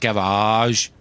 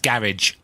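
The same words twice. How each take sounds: First: It is pronounced the American way. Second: It is pronounced the British way.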